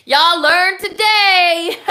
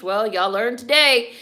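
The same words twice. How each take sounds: First: Much higher, louder, slow stretched-out gloat; Y'all learned today drawn out high and loud; singsong gloating. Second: Said in the usual way. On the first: Shown as a demonstration. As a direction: sing it out slowly to rub it in.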